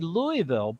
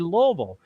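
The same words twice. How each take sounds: First: The word is said with more than two syllables. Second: The word is said with only two syllables. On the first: This is the proper pronunciation. "they know it's really Louisville" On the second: This is how the locals say it. "We're going to say Louisville"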